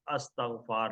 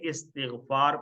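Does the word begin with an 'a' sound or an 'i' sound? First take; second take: a sound; i sound. First: The word begins with an 'a' vowel. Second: The word begins with an 'i' vowel. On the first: The speaker calls it wrong. "अस्तग़फ़ार नहीं पढ़ेंगे। अस्तग़फ़ार कोई लफ्ज़ नहीं होता है।" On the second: The speaker calls it right. "इस्तिग़फ़ार पढ़ेंगे"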